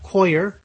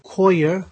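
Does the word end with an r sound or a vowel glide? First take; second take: r sound; vowel glide. First: It ends with a clear r sound. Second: It ends in a vowel glide with no r. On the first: This is the form of the accent being taught. "we're going to have koyer" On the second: This is the standard British form. "Instead of koya"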